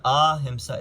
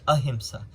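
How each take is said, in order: First: Ahimsa with long ah at the start; wrong ahimsa. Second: Ahimsa with a short uh at the start, uh-him-sa. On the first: Teacher showing how ahimsa is not said. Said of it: "It's not ahimsa". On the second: Teacher giving students the right ahimsa. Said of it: "it's ahimsa". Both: Shown as a demonstration.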